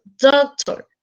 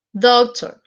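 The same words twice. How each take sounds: First: DOCtor, first syllable pushed up; stress on first syllable. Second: Said in the usual way. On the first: Shown as a demonstration. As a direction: lean on the DOC of doctor. (acento en DOC de doctor) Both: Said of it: "subrayar la primera sílaba".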